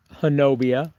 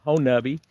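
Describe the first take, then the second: First: Honobia as huh-NO-bee-uh; spelling pronunciation. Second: Honubby as HO-nubby; Honubby, three syllables, ending like tubby; local pronunciation. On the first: Streamer naming the ridge, Honobia said as spelled. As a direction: stress the NO in Honobia. Spelled form, then self-corrects. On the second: Streamer correcting himself to Honubby, local pronunciation. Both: Real, not acted.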